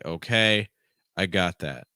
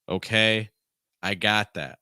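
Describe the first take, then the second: First: The phrase is said at a lower pitch. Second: The phrase is said at a higher pitch. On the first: "Lower in pitch" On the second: "I went higher in pitch"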